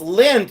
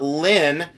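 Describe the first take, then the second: First: The name ends with a clear d sound. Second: The name ends without any d sound. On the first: The speaker calls it right. "It's Lind" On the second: The speaker calls it wrong. "not Lynn"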